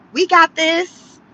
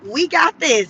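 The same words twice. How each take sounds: First: Mocking confident quote. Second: Said in the usual way. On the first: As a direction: mimic the city's swagger, "We got this" drawn out and lifted at the end. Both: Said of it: "Angelino said".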